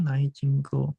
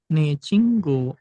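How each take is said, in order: First: The first word is two vowels, 'nai'. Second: The first word is a single vowel, 'ne'. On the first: The speaker calls it wrong. "Bukan joy cinggu atau nai cinggu" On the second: The speaker calls it right. "atau ne cinggu"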